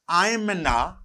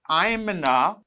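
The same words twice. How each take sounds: First: The words are contracted and linked together. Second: The words are contracted and linked together.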